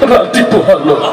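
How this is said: It is said in a tearful, crying voice. "তুই কান্দিস কে"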